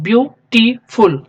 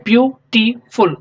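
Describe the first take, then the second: First: ब्यूटीफुल said slowly in three clear syllables; teacher repeating ब्यूटीफुल by syllable; syllable demo. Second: ब्यूटीफुल said slowly in three clear syllables; teacher counting the syllables of ब्यूटीफुल; syllable demo. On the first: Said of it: "तीन syllable इसमें आ रहे हैं". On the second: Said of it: "आप इसको pronounce कीजिए". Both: Shown as a demonstration.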